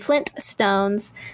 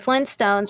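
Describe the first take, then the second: First: The middle T sound is clearly pronounced. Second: The middle T sound is dropped.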